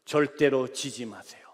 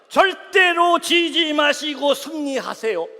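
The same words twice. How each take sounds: First: Earnest message. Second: Rousing message. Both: Retold or imitated. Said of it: "문자 그대로 말씀드릴게요".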